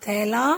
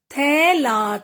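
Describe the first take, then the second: First: Said in the usual way. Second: "थैला" split as थै-ला; teacher's drawn-out "थैला"; sounding out. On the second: Shown as a demonstration. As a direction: stretch both syllables of "थैला". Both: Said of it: "कुछ ए के शब्द भी हैं".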